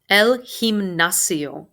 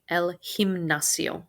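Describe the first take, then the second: First: Gimnasio said slowly with the G as an H, him-NA-sio; slow model: El gimnasio, G like English h; G in gimnasio breathed like an H. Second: El gimnasio with the G said as an English H. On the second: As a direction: gimnasio starts with a soft h sound. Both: Shown as a demonstration. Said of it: "This letter G is pronounced like an H".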